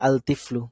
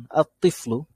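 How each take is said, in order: First: আল তিফলু with the lam clearly sounded; wrong al form. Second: আত তিফলু with the lam dropped and the t doubled; correct assimilated form. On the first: Teacher showing students the odd-sounding wrong reading. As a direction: say আল তিফলু keeping the l before তি. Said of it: "কেমন না odd?". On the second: Teacher showing students the proper beautiful reading. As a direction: say আত তিফলু, l merged into a held tt. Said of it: "কত সুন্দর". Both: Shown as a demonstration.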